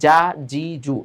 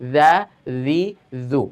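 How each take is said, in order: First: The consonant is a hard 'j' sound. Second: The consonant is a soft sound. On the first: The speaker calls it wrong. "এইভাবে জিমের সাথে মিলিয়ে ফেলে" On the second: The speaker calls it right. "এভাবে নরম ভাবে"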